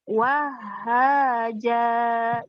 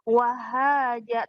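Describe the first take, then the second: First: The doubled w sound is held a moment longer. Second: The doubled w sound is rushed through quickly. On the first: The speaker calls it right. "Jadi dia seakan dikasih intonasi" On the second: The speaker calls it wrong. "Tasydidnya dapat, tapi cepat"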